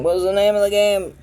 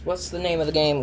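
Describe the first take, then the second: First: Pitched up, loud and frustrated; high strained voice. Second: Said in the usual way. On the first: Real, not acted. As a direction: squeak it out in frustration. Frustrated search for game name.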